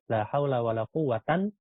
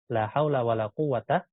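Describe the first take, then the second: First: The last word ends in 'an'. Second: The last word ends in a short 'a'. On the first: "yang kedua kita baca mansub" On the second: "Pertama dia kita fathah"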